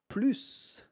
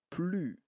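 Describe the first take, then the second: First: The final S is pronounced. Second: The final S is not pronounced. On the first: The speaker calls it wrong. "Attention, c'est pas plus" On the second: The speaker calls it right. "Le S muet. Pas de S"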